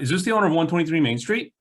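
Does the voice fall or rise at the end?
rise. The voice rises upward at the end. The question sounds weak. The speaker calls it wrong. "Not, ... That was the upswing"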